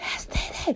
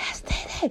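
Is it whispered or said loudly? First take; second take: whispered; whispered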